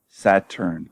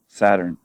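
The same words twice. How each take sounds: First: It is said with a non-Canadian pronunciation. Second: It is said with a Canadian pronunciation. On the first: "I'm going to say it this way" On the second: "in Canada we'd say Saturn"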